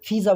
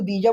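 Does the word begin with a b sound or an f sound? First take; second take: f sound; b sound. First: The word begins with an f sound. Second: The word begins with a b sound. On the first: This is how it is said in Saudi Arabia. "Saudi में हो तो फ़ीज़ा बोलोगे" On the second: This is how it is said in Dubai. "Dubai में हो तो बीजा बोलोगे"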